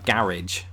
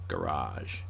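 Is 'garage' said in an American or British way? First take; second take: British; American. First: Short, clipped British pronunciation with stress at the start. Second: Drawn-out American pronunciation with a long final vowel. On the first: "when the British say it" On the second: "Americans ... extend the A"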